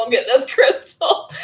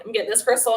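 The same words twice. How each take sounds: First: Louder, higher, breaking into laughter; laughing insistence. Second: Said in the usual way. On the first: Retold or imitated. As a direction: repeat it insistently through a laugh. Repeats decision while laughing.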